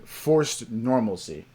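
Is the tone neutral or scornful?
neutral. It is said in a plain, neutral tone. The phrase is meant as a plain description. "I'm just saying forced normalcy"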